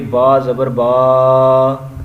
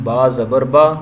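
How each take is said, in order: First: The final vowel is drawn out long. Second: The final vowel is kept short. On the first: The speaker calls it wrong. "इस तरह लंबा करके नहीं पढ़ना" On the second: The speaker calls it right. "लंबा नहीं करना"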